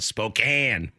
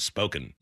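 First: The last syllable has a hard A. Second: The last syllable sounds like 'spoken'. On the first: The speaker calls it right. "always remember to go the hard A" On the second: The speaker calls it wrong. "instead of Spoken"

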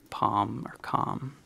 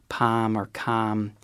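First: The vowel is further back. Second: The vowel is fronted. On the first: "whereas other people might say palm or calm" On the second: "a fronted palm vowel, where the word palm or calm is pronounced a little bit more like that"

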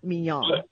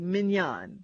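First: The name is said unlike the steak. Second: The name is said like the steak. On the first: The speaker calls it wrong. "not Mignon" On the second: The speaker calls it right. "that's the way you say it"

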